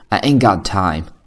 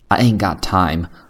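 Both takes have the same delivery.

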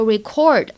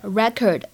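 First: The stress is on the second syllable. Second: The stress is on the first syllable. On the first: It is the verb meaning to record. "如果它作为动词表示，记录或者录音，读作" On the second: It is the noun meaning a record. "当它作为名词的时候是这样来读的"

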